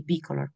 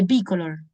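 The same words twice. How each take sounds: First: Bicolor with the stress on the first syllable, BI-color, said low and soft; English stress on the I. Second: Bicolor with the stress on the final syllable, bico-LOR; Spanish stress on the O. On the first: Teacher showing students the English stress, bicolor stressed on BI. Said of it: "iría en la I". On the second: Teacher giving the Spanish form to students, bicolor stressed on LOR. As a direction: say bicolor the Spanish way, leaning on the last O. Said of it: "Nosotros decimos bicolor en español con la acentuación en la O". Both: Shown as a demonstration.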